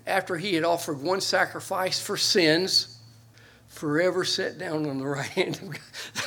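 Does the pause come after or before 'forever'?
before. The pause comes before the word forever. He sat down forever. "you can move that comma and still be a good translation from and move it to sins and read it this way"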